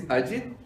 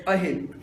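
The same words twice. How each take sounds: First: "Ajit", with a clear j sound in the middle; correct name pronunciation. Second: "Ahit", with h in place of the j; mispronounced name. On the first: Shown as a demonstration. Telling audience his real name, correctly pronounced "Ajit" with j. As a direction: say "Ajit" with j, not h. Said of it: "You know, my name is". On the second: Retold or imitated. Showing how cute girl says his name, mispronounced "Ahit". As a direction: imitate her "Ahit", the j softened to an h. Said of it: "but she pronounced as".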